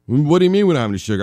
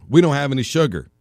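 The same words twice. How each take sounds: First: Fast, loud, disbelieving repeat of we don't have any sugar; mock incredulous. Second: Said in the usual way. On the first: Repeating the partner's words back at them, mock incredulous. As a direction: rattle it off in hammed-up disbelief.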